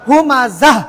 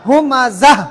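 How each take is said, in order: No difference in how they are said.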